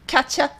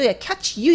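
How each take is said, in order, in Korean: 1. 'you' 단어는 'ya'로 줄여서 발음해요. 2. 'you' 단어는 온전히 발음해요. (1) "줄여서 ... 빠르게 하다 보면 거의 ... 이렇게 발음되거든요" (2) "이렇게 발음하지 않고"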